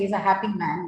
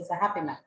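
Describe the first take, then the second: First: Happy ends in a full long E. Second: Happy ends in a shorter in-between E. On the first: The speaker calls it wrong. "You don't say he's a happy man" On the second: The speaker calls it right. "you say he's a happy man"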